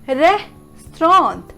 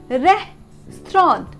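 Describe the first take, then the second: First: It is said compactly, ending like 'strawnt'. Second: The same.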